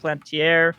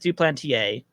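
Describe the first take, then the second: First: The name is said with an English-style pronunciation. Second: The name is said with a French-style pronunciation. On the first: This is how the speaker has habitually said it. The speaker calls it wrong. "I've always called it Duplantier" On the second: This is the proper pronunciation of the name. The speaker calls it right. "It technically is French. Yes, it's it's how it's pronounced"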